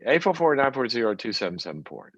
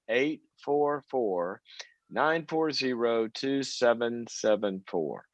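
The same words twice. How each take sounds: First: The number is said very fast. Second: The number is said very slowly.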